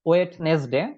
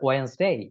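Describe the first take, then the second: First: It starts with 'wed-nes', a 'd' sound and two syllables. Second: It starts with 'wens', one syllable and no 'd' sound. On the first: The speaker calls it wrong. "ভুল উচ্চারণটা করে থাকি" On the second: The speaker calls it right. "এটার right উচ্চারণ যেটা"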